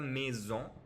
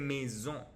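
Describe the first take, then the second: First: The ending is said with a sounded n. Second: The ending is said as a nasal vowel. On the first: The speaker calls it wrong. "c'est pas la maison" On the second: The speaker calls it right. "c'est maison"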